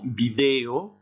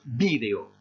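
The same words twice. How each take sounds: First: The stress is on the second syllable. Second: The stress is on the first syllable. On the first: "cette écriture-là avec comme prononciation video" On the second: "une autre orthographe avec un accent écrit ici"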